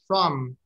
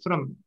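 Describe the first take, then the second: First: The vowel is full and stressed. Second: The vowel is reduced and unstressed. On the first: "if it's strong, it will sound like from" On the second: "If it's weak, it will sound like from"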